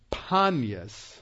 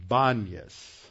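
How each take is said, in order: First: Panias said slowly, opening on a clear P sound. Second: Banias starting with B, as Arabic speakers say it. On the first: Teacher explaining the place name to his class, slow with a clear P. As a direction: Panias with a crisp P, not a B. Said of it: "Arabs can't say the letter P". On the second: Teacher showing how Arabs say the name, slow with a B. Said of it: "so they say the letter B". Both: Shown as a demonstration.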